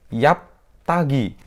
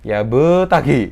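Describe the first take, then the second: First: The b is closed with no bounce. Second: The b bounces fully like a vowel. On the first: "salah karena tidak dipantulkan" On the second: "itu juga salah"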